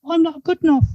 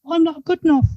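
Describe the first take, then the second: First: It is said in a high, squeaky voice. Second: The same.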